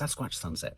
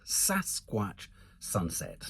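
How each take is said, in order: First: It is said very fast. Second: It is said at a normal speed.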